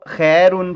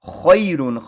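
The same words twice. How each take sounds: First: The first vowel is a flat e sound. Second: The first vowel glides from a to i. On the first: The speaker calls it wrong. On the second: The speaker calls it right.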